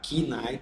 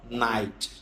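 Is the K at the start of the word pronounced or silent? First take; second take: pronounced; silent. First: The initial K sound is pronounced. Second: The initial K sound is silent. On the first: The speaker calls it wrong. "em vez de você falar key night" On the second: The speaker calls it right. "você fala night"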